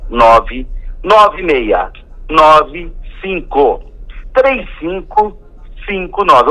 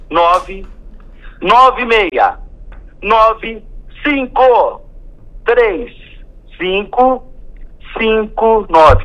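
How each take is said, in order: First: The number is said at normal speed. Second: The number is said slowly.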